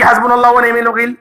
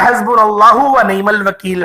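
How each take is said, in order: First: It is recited quickly and rushed. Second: It is recited slowly and carefully.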